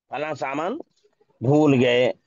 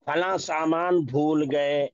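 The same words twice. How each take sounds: First: भूल said with a long uu, pushed out loud; repeated example, louder ending. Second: भूल said with a long uu; slow example. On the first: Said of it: "इसीलिए भूल पढ़ेंगे". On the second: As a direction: say it slowly so भूल stands out. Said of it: "या हम कहे". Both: Shown as a demonstration.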